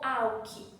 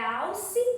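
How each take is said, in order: First: The consonant before the last vowel is a K sound. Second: The consonant before the last vowel is an S sound. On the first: The speaker calls it wrong. "se você não vai ter som de alque não, de K?" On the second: The speaker calls it right. "É alce animal"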